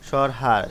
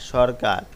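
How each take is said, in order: First: The middle consonant is said as an h sound. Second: The middle consonant is said as a k sound. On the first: The speaker calls it wrong. "যেই শব্দটি প্রমিত হয়নি" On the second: The speaker calls it right. "প্রমিত রূপ"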